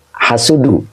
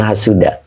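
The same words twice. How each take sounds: First: Hasudu with a clear final u, slightly higher; correct hasudu. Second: Hasuda with a final a, the wrong reading. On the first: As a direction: correct the student: hasudu ending in u. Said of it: "bukan hasuda, hasudu". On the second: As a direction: say hasuda ending in a, as the student wrongly did. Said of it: "Pak Komar bukan hasuda". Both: Shown as a demonstration.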